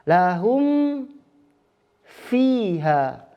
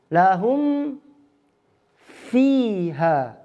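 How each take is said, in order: No difference in how they are said.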